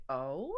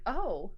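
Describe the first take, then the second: First: "Oh?" starting low and swooping up; a soft, questioning "Oh?" with a steep rise; intrigued "Oh?". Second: "Oh." swelling up then falling; an appreciative "Oh." with an arched rise and fall; smitten "Oh.". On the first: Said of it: "looking at that man like that is the hottest thing". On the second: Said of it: "And so she's like". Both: Acted.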